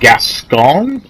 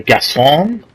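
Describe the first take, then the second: First: The name is said with an English-sounding pronunciation. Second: The name is said with a French-sounding pronunciation. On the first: "Is that how you pronounce it" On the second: "I don't think he's French"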